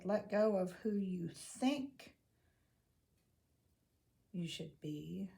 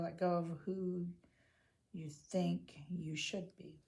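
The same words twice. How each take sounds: First: The word think is stressed. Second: The word should is stressed.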